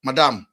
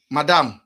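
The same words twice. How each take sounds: The two takes are said the same way.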